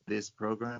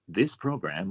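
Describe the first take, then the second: First: It is delivered in a relaxed, casual voice. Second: It is delivered in a formal announcer voice. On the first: The speaker calls it right. "It's got to be casual" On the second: The speaker calls it wrong. "it's too announcery sounding"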